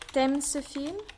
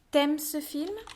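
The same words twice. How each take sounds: First: The u of tu is dropped. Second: The same.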